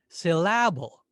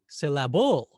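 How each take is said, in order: First: The stress is on the second syllable. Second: The stress is on the third syllable. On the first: "What if we stressed the second syllable?" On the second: "What about the third syllable?"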